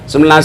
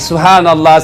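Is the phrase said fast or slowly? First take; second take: fast; slowly. First: It is said very fast and slurred. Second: It is said slowly with every syllable clear. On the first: The speaker calls it wrong. "Zikirnya terlalu cepat" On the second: The speaker calls it right. "Maka perbaiki"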